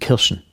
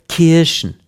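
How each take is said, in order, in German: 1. Der erste Vokal ist kurz und knapp. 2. Der erste Vokal wird lang gezogen. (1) "Kurz, ja" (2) "Niemand sagt in Sachsen Kirschen"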